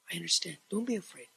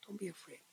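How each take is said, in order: First: Soft, tender reassurance as Jesus to Peter; gentle comfort. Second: Much softer repeat of Don't be afraid, almost gone; fading comfort. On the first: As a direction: speak it softly, calming a frightened friend. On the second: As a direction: let Don't be afraid fade to a near hush. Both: Acted.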